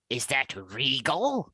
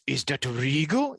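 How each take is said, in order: First: Slow, stiff line reading; a hint of a bad regal actor; bad acting. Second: Slow, stiff regal line read; hammed-up regal delivery; bad acting. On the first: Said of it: "deliver the line like this". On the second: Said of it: "like this".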